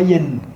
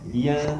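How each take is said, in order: First: The n sound is fully pronounced. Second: The n sound is hidden in nasalization. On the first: The speaker calls it wrong. "on ne dit pas yen" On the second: The speaker calls it right. "Donc on fait le nasalement"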